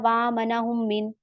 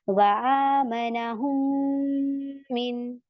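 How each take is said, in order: First: The doubled m is rushed through quickly. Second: The doubled m is held long and nasal. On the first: The speaker calls it wrong. "ऐसे जल्दी से नहीं पढ़ना" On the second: The speaker calls it right. "इसमें गुन्ना करें, इसे खींचे।"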